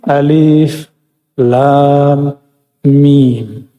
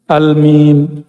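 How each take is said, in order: First: Each letter name is said separately in full. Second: The letters are run together into one word. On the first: The speaker calls it right. "Dibacanya mesti Alif, Lam, Mim" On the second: The speaker calls it wrong. "Bacanya apa? Al-Mim. Tapi nggak boleh dibaca begitu"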